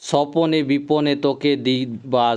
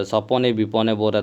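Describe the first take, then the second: First: Slow, lifted reading of the verse; recited verse, each word stretched; poem recitation. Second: Said in the usual way. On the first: Shown as a demonstration. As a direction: draw out सपने विपने like recited verse. Teacher recites poem line.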